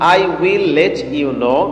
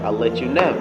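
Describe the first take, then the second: First: 'I will' is said as two full words. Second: 'I will' is contracted into one short syllable.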